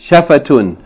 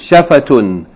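First: The word ends with a full 'tun' ending. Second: The word ends with a full 'tun' ending.

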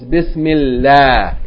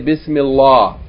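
First: The L sound in Allah is light and thin. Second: The L sound in Allah is heavy and full. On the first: The speaker calls it right. "it's Bismillah. It's pronounced Yani La. Because the vowel before it has kasra" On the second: The speaker calls it wrong. "some people say"

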